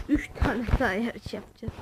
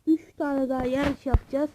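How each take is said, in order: First: The same words again, in a lower, softer altered voice; a light put-on voice, lower and softer. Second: Said in the usual way. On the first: Shown as a demonstration. Repeats the line in another voice.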